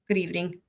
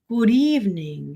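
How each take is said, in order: First: It is said in an ordinary voice. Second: It is said in a put-on vampire voice.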